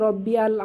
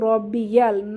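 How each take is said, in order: First: The y sound is dropped between the words. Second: A y sound links the two words. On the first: The speaker calls it wrong. "রব্বি আল না" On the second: The speaker calls it right. "এখানে কিন্তু রব্বি ইয়াল"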